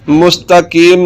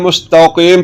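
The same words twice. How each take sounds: First: The k-sound is made light and forward. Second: The k-sound is made deep and heavy. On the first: The speaker calls it wrong. "मुस्तकीम नहीं पढ़ना" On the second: The speaker calls it right. "इस काफ को पढ़ना है, मुस्तकीम पढ़ना है"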